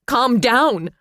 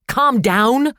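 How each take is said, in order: First: High, loud shout. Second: High, loud shriek; mother throwing the words back, shrieking. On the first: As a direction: throw it back at him. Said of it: "she shouted". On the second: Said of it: "she shrieked". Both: A narrator's reading.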